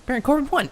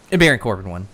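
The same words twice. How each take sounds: First: Exasperated high repeat; mock disbelief. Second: Said in the usual way. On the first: Real, not acted.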